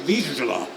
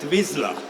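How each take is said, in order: First: The name is said the Hungarian way. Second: The name is said the English way. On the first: This is the official name of the dog breed. "officially it is a Hungarian dog breed name called Vizsla" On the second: This is how the show says the name. "You pronounce it Vizsla"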